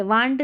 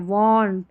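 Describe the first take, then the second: First: "want" with an open "aa" vowel, waant; wrong pronunciation. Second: "want" with a rounded "aw" vowel, wawnt; corrected pronunciation. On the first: Teacher shows learners the misreading, "want" with an aa vowel. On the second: Teacher corrects learners, "want" with a rounded aw vowel. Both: Shown as a demonstration. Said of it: "want नहीं पढ़ना".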